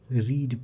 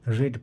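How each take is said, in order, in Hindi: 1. इसमें लंबा स्वर है, 'reed' जैसा। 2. इसमें छोटा स्वर है, 'red' जैसा। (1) "फर्स्ट फॉर्म को रीड प्रोनाउंस करते हैं" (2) "सेकंड और थर्ड फॉर्म को आप रेड प्रोनाउंस करते हैं"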